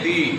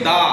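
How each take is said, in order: First: The word ends in an 'ee' vowel. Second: The word ends in a short 'uh' vowel. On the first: It comes before a word starting with a vowel. "ভাওয়েলের আগে যদি বসে T H E তখন হয়ে যাবে কি দি" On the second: It comes before a word starting with a consonant. "কোনো কনসোনেন্টের আগে থেকে বসবে টি এইচ ই তখন হয়ে যাবে কি দা"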